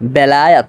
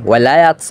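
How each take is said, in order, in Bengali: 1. শব্দটি 've' ধ্বনি দিয়ে শুরু হয়। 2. শব্দটি 'wa' ধ্বনি দিয়ে শুরু হয়। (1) "বিশুদ্ধ উচ্চারণটা হলো এরকম" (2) "এরকম উচ্চারণ করা হয় বাঙালিরা"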